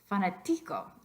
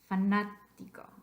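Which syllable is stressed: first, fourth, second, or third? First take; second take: third; second. First: The stress is on the third syllable. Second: The stress is on the second syllable. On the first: The speaker calls it wrong. "What about the second to last?" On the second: The speaker calls it right. "It's the third syllable back"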